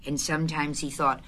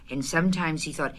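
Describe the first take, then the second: No difference in how they are said.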